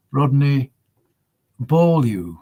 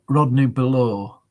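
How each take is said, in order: First: "Beaulieu" said BOH-lyu, with a y-glide after the l; "Beaulieu" as bohl-YOO, not "below"; careful French-name pronunciation. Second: "Below" said like the word below, ending in a plain "loh"; "Below" as buh-LOH; wrong pronunciation. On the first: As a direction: sound out "Rodney Beaulieu" carefully, a pause before "Beaulieu". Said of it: "get it pronounced". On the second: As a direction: say "Below" as English below, with no y-sound. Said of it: "It's not Rodney Below". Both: Shown as a demonstration.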